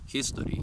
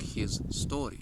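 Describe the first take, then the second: First: It is said as one smooth word. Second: It is said slowly, split into two parts.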